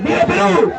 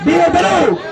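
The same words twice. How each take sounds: First: Shouted chant on request; louder rally cry. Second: Raised, higher shout of viva Perú; rally cry. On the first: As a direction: belt it out stronger this time. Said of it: "A ver, fuerte". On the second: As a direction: call out the chant to the crowd. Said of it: "A ver, hermano". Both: Real, not acted.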